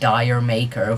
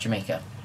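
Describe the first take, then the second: First: It is said as two words, 'dire maker'. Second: It is said as one word, 'Jamaica'. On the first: The speaker calls it wrong. "which is not at all how you pronounce the title" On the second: The speaker calls it right. "it's pronounced Jamaica"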